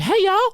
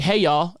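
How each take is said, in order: First: Very high Southern Kentucky "hey, y'all"; high-pitched Kentucky. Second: Said in the usual way. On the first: Retold or imitated. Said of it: "people in Kentucky be like". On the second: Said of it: "So, like, I'll be like".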